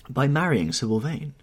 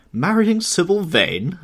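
First: Said in the usual way. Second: High, loud, drawn-out disbelief; amazed cry. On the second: A narrator's reading. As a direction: echo it slowly in loud, perplexed amazement. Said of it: "cried Lord Henry".

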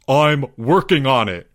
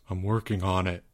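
First: Raised, emphatic protest; exasperated cry. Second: Low, soft, sheepish mutter; mumble. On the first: Albert accused over unpaid dues, exasperated cry. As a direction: cry it out in frustration. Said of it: "cried Albert". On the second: Albert reminded of his dues, low soft mumble. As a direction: mumble it low under your breath. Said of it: "mumbled Albert". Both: A narrator's reading.

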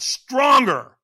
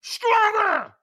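First: Loud, higher shouted order; trainer's demand. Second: Very high, loud, strained scream; screamed demand. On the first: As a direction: imitate a trainer pushing for more. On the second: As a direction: imitate a trainer screaming for more. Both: Retold or imitated. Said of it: "So he screamed at me".

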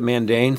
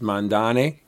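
First: Mandane said man-DAYN, as spelled; Mandane, long a at the end. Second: Mandane said mahn-DAH-neh; Mandane other way. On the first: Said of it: "it's spelled like, like you would sound it". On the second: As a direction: Mandane with open a sounds. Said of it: "Sometimes I hear it pronounced". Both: Shown as a demonstration.

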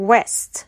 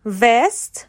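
First: "west" begun with a rounded W; W sound. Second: "west" begun with a V, as vest; V sound. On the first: Teacher showing second pair, "west" said with W. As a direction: round the lips to start "west", no teeth. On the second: Teacher showing second pair, "west" said with V. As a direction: teeth on lip to start "west" as vest. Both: Shown as a demonstration. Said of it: "V و Wه".

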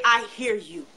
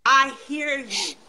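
First: Said in the usual way. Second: Tender reassurance. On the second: Shown as a demonstration. Voicing Allah's reassurance, repeated slowly.

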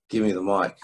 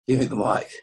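First: Said in the usual way. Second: Repeating it with a laugh, slightly higher. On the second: Retold or imitated. Retelling how he asked the room for the mic, laughing. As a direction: laugh through the repeated demand.

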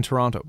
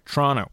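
First: Said in the usual way. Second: Toronto squeezed to "Tronno"; local pronunciation. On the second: Shown as a demonstration. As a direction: drop the second t in Toronto. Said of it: "Sorry, Toronto".

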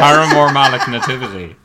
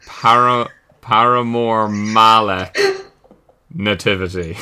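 First: Laughing delivery. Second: Slow, halting word by word, with a pause before Nativity; slowly piecing together. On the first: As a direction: announce the silly answer, cracking up. Repeats the solved silly answer amused. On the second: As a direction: work out the answer as you speak. Piecing together the punning answer. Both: Real, not acted.

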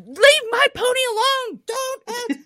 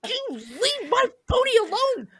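First: Put-on childish yell. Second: High, strained yell at the bull; a furious little girl's cry, pitched way up; childish yell. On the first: Little girl yelling at a bull to protect her pony, high shout. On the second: Retold or imitated. Little girl yelling at the bull again, high shout.

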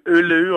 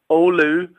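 First: Oulu said as "OO-loo"; anglicised pronunciation. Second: Oulu said as "OH-loo"; local pronunciation. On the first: Guest naming the Finnish town, Oulu as "OO-loo". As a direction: say Oulu with an opening "oo" sound. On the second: Guest showing how locals pronounce it, Oulu as "OH-loo". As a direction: open Oulu on an "oh" glide, then "loo". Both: Shown as a demonstration. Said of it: "or as they pronounce it".

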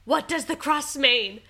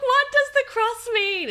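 First: Higher, louder, worried question; confused call through the door; anxious question. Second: Much higher, much louder frantic yell; shouting at sister and partner in panic; panicked shout. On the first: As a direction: ask it urgently, confused. Asking after the pregnancy test. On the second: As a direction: yell it through the bathroom door in panic. Repeats after silence, louder. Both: Retold or imitated.

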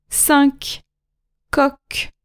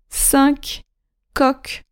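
First: Cinq and coq said soft, with the final K sound; cinq, coq, hard K at the end; said softly. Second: Cinq and coq again, soft, final K sounded; cinq, coq repeated with a soft clear K; soft repeat, K heard at the end; said softly. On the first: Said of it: "final Q pronounced". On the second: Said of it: "repeat of model". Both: Shown as a demonstration.

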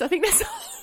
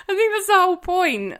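First: Whispered aside, high and breathless. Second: Louder and higher, laughing it out. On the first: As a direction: whisper it conspiratorially. Whispered aside, then repeated. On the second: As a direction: say it out loud with a laugh. Repeated aloud after whisper. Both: Acted.

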